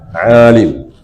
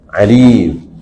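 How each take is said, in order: First: The first syllable has the long vowel. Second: The second syllable has the long vowel. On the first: It follows the active participle pattern. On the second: It follows the written form.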